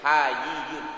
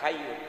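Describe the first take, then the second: First: The word is said as hayiyyun. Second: The word is said as hayyun. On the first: God is most modest. The speaker calls it right. "Kalau dibaca hayyun artinya maha pemalu" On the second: God is ever-living. The speaker calls it wrong. "Bukan hayyun"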